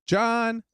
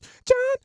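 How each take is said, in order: First: The word is said plainly, without extra force. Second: The word is said with big, punchy force. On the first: "if someone says, hello" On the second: "when we want to accentuate a word, make it sound bigger than life"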